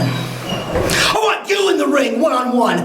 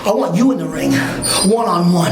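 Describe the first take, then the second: First: Slow, shouted demand; shouted challenge. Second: Said in the usual way. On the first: Real, not acted. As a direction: bellow the challenge slowly, word by word. Wrestler calls out his rival.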